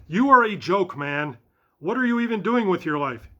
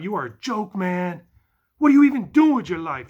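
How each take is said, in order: First: It is read in his normal voice. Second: It is read in a put-on stoner voice.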